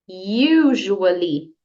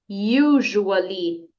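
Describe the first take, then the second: No difference in how they are said.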